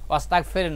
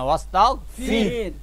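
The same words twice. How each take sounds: First: The last syllable has an open e-like vowel. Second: The last syllable has a close i-like vowel. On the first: The speaker calls it wrong. "মেজরিটি আমাদের লোকরা আমরা পড়ো" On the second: The speaker calls it right. "ফির ফের না"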